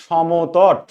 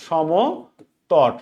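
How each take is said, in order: First: Said in the usual way. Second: Samatata dragged slowly so students can write it; drawn-out dictation. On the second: Shown as a demonstration. Teacher to live students, spelling out a name very slowly. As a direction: stretch Samatata out very slowly, syllable by syllable.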